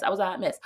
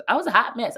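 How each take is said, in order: First: Said in the usual way. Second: Higher, louder first take of hot mess. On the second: Acted. Telling her viewers, exclaiming high and loud.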